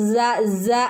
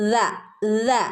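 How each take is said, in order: First: The consonant is a hissing s sound. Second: The consonant is a th sound with tongue at teeth. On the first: The speaker calls it wrong. "പല ആളുകളും സ സ എന്നുള്ള സൗണ്ടാണ് വരുന്നത്" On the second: The speaker calls it right. "നാവ് മുകളിലുള്ള പല്ലിൽ തട്ടിച്ചാൽ മാത്രമേ ആ ദ എന്നുള്ള ശബ്ദം"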